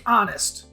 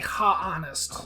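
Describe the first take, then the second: First: The word starts with a vowel, no h sound. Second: The word starts with an audible h sound. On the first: The speaker calls it right. "Like honest" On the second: The speaker calls it wrong. "You don't say ha honest"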